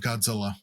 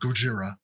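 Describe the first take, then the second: First: The name is said with English sounds. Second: The name is said with Japanese sounds.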